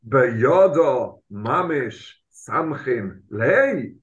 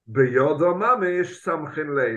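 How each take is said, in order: First: It is said with question intonation. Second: It is said as a flat statement. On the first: It asks whether he literally leans on him with his hands. The speaker calls it right. "it's a question" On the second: It asserts that he literally leans on him with his hands. The speaker calls it wrong. "Do not read the Gemara as"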